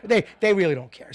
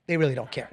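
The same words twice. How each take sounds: First: Pushed up, louder and higher on the repeat; a rising laughing insistence; emphatic louder repeat. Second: Said in the usual way. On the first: Real, not acted. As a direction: hammer the point home the third time. Repeating the point, building.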